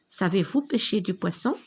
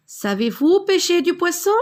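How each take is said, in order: First: Said in the usual way. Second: High, loud rising question; rising question tune. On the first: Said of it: "on reconnaît la phrase interrogative à l'intonation". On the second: Shown as a demonstration. Teacher lifting her voice to show the question tune. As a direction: lift the voice on "Savez-vous pêcher du poisson?" so it climbs high. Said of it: "J'ai élevé ma voix".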